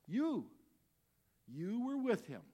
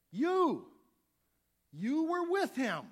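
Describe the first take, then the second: First: Accusing call. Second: High, loud and slow: you were with him; shouted accusation. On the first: Young woman accuses Peter. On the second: Second accuser yelling at Peter, loud and slow. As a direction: point and shout it out, slowly. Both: Acted.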